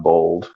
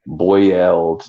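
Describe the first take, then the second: First: Bold, no oy sound, for boiled; Southern pronunciation being corrected. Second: Put-on boiled with a full oy, as BOY-uld; corrected pronunciation. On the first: Retold or imitated. Relaying what the friend objects to, boiled said as bold. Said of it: "not bold". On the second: Relaying a friend's correction, boiled with a full oy. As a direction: say boiled slowly with a clear oy. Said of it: "She said it's boiled".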